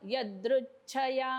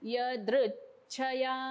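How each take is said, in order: First: The stress is on the first syllable, ya. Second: The stress is on the second syllable, dri. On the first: The speaker calls it wrong. "म्हणजे यवर आघात आला. पण यवर आघात नाहीये" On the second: The speaker calls it right. "द्रुला हा जोर द्यायचा आहे. ... हा य प्लेन म्हणतेय मी"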